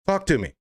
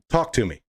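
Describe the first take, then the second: First: Insistent repeat. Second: Said in the usual way. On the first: Real, not acted. Calling out Mayor Lightfoot: higher, insistent Talk to me. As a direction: Talk to me pitched higher with a hard push on Talk.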